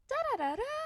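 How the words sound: The syllables are said in a tight, strained tone. The speaker is stressed, not at peace. The speaker calls it wrong. "That's tense. That's stress"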